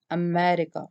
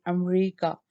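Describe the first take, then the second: First: America with the stress on ME; stress on second syllable. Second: America with the stress shifted toward the end; America said Pakistani-style, run together as am-REE-ka; Pakistani English stress. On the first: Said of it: "M E". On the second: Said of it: "Our stress will be on the last of the syllable". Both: Shown as a demonstration.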